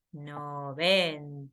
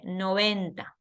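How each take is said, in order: First: Slow drawn-out. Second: Said in the usual way. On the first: Shown as a demonstration.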